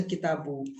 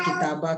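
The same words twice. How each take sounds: First: Kitabu ending in an "oo" sound; final -u vowel. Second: Kitaba ending in an "ah" sound; final -a vowel. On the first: Teacher questioning students on the reading, "kitabu" with final u. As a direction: end "kitabu" on u. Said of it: "kenapa tadi dibaca kitabu". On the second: Teacher offering an alternative reading, "kitaba" with final a. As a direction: end "kitaba" on a. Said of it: "Kenapa nggak kitaba". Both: Shown as a demonstration.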